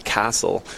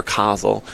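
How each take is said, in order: First: Kassel as the first German variant, short first vowel; German pronunciation. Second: Kassel with an open "ah", like "KAH-zel"; alternative German pronunciation. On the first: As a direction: say Kassel with a crisp "ss". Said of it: "they pronounced it Kassel". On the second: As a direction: say Kassel with a drawn-out first vowel. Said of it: "they pronounced it Kassel, uh, or". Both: Shown as a demonstration.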